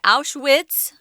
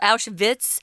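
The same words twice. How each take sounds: First: It is said with an English-style pronunciation. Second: It is said with a German-style pronunciation.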